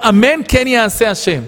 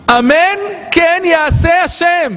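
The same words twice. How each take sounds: First: Said in the usual way. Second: אמן כן יעשה השם drawn out slowly, higher, each word weighed; slow emphatic amen. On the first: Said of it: "מה זה היה לה לומר". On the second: Shown as a demonstration. A teacher showing what Sarah should have said, slow and solemn. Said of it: "היה לה לומר".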